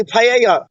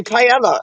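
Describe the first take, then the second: First: Paella said pie-AY-uh with no L or Y sound; wrong paella. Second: Paella said pie-EL-uh, the Spanish way; proper paella. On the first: Friends mocking a song's wrong take, saying paella as pie-AY-uh. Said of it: "They say paella". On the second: Correcting a friend on the song, saying paella the Spanish way. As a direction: paella with the sounds said out clearly. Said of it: "they don't say paella". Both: Shown as a demonstration.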